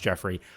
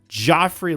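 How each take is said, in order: First: The first vowel sounds like 'jet'. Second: The first vowel sounds like 'jaw'. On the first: This is the name's proper pronunciation. The speaker calls it right. "I'm fully aware it's pronounced Jeffrey" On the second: The speaker mispronounces the name out of dislike. The speaker calls it wrong. "I'm not pronouncing it correctly"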